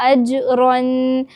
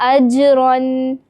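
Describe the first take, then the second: Both takes have the same delivery.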